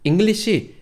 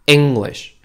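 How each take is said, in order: First: The stress is on the second syllable. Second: The stress is on the first syllable. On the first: The speaker calls it wrong. "하시면 안 돼요" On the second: The speaker calls it right. "악센트를 앞쪽에 주셔야 돼요"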